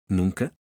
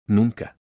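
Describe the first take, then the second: First: Rising, disbelieving echo of Nunca; surprised question. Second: Nunca said flat and firm, falling; flat firm answer. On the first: Mateo, startled, questions Elena's never, rising disbelief. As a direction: ask it back in disbelief, pitch lifting at the end. Incredulous echo of her words. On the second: Elena confirms to Mateo she never cooks, firm and flat. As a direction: settle it with one firm falling word. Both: Acted.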